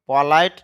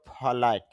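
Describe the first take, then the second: First: The p is said without a puff of air. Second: The p is said with a puff of air. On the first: The speaker calls it wrong. "পলাইট না বলে" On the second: The speaker calls it right. "আমরা বলো ফলাইট ... এই জন্য বাতাস বের করব"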